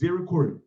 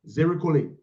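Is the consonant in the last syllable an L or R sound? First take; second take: R sound; L sound. First: The last syllable is said with an R sound. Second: The last syllable is said with an L sound. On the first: The speaker calls it right. "It's Zirikore" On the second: The speaker calls it wrong. "It's not Zirikole. There's no L in that thing there"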